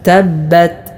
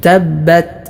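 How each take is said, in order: The two takes are said the same way.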